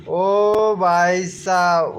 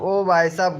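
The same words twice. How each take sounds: First: Very slow, stretched-out "ओ भाई साहब" with a long "ओ"; drawn-out exclamation. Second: Said in the usual way. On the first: Acted.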